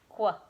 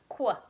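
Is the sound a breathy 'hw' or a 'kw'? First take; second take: kw; kw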